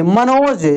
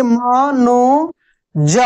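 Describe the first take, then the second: First: Said in the usual way. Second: म-नो-ज split into slow syllables. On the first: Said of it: "ऐसे Manoj". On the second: Shown as a demonstration. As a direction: sound out Manoj piece by piece. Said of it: "देखिए म-नो-ज".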